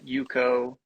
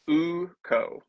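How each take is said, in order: First: The name begins with a 'y' sound. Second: The name begins directly with a vowel sound. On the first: The speaker calls it wrong. "not Yuko" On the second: The speaker calls it right. "it's Uko's hammer"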